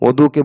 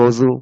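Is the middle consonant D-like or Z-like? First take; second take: D-like; Z-like. First: The middle consonant is an emphatic d-like sound. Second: The middle consonant is a z-like sound. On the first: The speaker calls it right. "দদকে জ উচ্চারণ করি" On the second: The speaker calls it wrong. "এটাও একটা গলত মাসুর"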